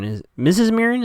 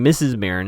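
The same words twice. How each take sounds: First: "Missus Marin" pitched high as a question; questioning the name. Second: Said in the usual way. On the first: Real, not acted. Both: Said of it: "Is that what he says?".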